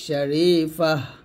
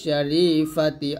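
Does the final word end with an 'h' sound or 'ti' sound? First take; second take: h sound; ti sound. First: The word ends with a short 'h' sound. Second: The word ends with a full 'ti' syllable. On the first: The speaker stops at this word. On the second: The phrase continues without stopping.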